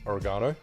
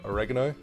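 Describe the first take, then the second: First: It is said in a non-American accent. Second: It is said in an American accent.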